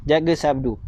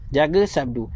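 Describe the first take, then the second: No difference in how they are said.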